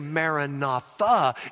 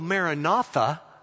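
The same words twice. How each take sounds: First: The stress falls on the last syllable. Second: The stress falls before the last syllable. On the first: It announces that the Lord comes. "you put the accent on the last syllable" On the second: It is a prayer asking the Lord to come. "If you go Maranatha, you're saying, Lord Jesus, come"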